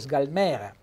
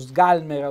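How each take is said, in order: First: The stress falls away from the A syllable. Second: The stress falls on the A syllable. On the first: The speaker calls it wrong. "per non dire sgalmera" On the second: The speaker calls it right. "un bel accento tonico sulla A"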